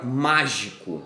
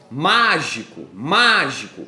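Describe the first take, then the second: First: Said in the usual way. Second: MÁGICO called out with a long, punched MÁ; stress on MÁ. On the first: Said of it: "Um outro exemplo agora de uma proparoxítona". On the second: Shown as a demonstration. Teacher demonstrating the shouting rule to pupils, stress on MÁ. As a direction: call MÁGICO, leaning hard on MÁ. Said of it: "quando você usar a regra do grito".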